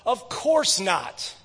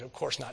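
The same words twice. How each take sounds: First: It is said forcefully, like an exclamation. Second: It is said flatly, without emphasis. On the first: The speaker calls it right. "there's an emphatic, there's an exclamation mark there" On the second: The speaker calls it wrong. "I didn't say that right. I said it like"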